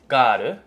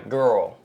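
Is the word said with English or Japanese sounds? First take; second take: Japanese; English. First: It is said with Japanese sounds, ending in 'ru'. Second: It is said with English sounds, using the 'er' vowel. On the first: The speaker calls it wrong. "in Japanese, it's pronounced as garu" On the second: The speaker calls it right. "in English, it's pronounced as uh, girl"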